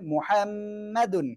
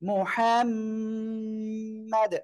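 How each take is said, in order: First: The word ends with an added un sound. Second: The word ends on a bare d sound. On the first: It is the form used when reading on. "আর যদি আমরা সিম্পল বলি তাহলে মুহাম্মাদুন এটা হবে" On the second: It is the form used when stopping there. "আমরা এখানে ওয়াকফ করলে এমন হবে"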